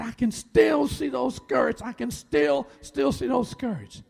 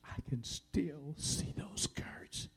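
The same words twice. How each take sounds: First: High, drawn-out distressed cry; retold sobbing. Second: Slow, near-whispered wounded words; hushed pain. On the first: Wife overcome by an old hurt, imitated sobbing. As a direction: imitate a wife's anguished outburst, slowly. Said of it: "she began to sob". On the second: Retold or imitated. Wife remembers childhood wound decades later, pained whisper. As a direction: imitate her hurt in a drawn-out whisper. Wife's old hurt, retold hushed.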